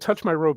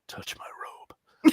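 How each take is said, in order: First: It is said in a plain, ordinary way. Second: It is said in a slow, sensuous way.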